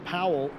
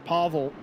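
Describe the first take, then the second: First: The middle consonant is a W sound. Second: The middle consonant is a V sound. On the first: The speaker calls it wrong. "not Powell, as I pronounce it" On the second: The speaker calls it right. "I think it's pronounced as a V"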